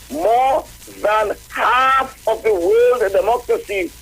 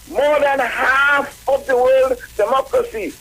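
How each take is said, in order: First: The phrase is read slowly and deliberately. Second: The phrase is read at a normal pace.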